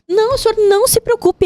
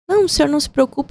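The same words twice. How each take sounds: First: It is said in an urgent, agitated tone. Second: It is said in a calm, detached tone. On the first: The listener's distress is mirrored and shared. The speaker calls it right. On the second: The listener's distress is not acknowledged. The speaker calls it wrong.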